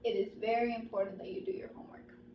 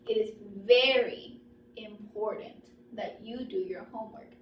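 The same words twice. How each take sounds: First: It is said flatly, with no pause. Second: Very important is stronger, with a pause between. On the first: "no intonation, no anything" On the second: "my voice get stronger or higher, right, for very important, but I have put a pause"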